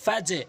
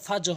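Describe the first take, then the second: First: It ends with a short bounced consonant. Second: It ends with a full added vowel. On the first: The speaker calls it right. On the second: The speaker calls it wrong. "এখানে ফাজো হবে না"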